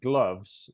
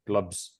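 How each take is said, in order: First: The word ends with a v sound. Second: The word ends with a b sound. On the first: The speaker calls it right. "the V sound at the end of the word" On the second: The speaker calls it wrong. "they might say glubs"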